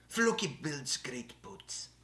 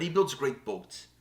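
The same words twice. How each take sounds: First: Put-on slow, drawn-out Norse accent; Floki. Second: Said in the usual way. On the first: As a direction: put on a Viking show character's accent, drawing the words out. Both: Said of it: "That's my Floki accent".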